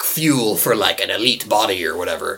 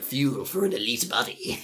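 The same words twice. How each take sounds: First: Salesman voice. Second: Soft, sinister villain purr; menacing sales pitch; supervillain voice. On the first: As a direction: sell it like an infomercial. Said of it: "What accent was that?". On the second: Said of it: "turned into, like, a supervillain". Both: Acted.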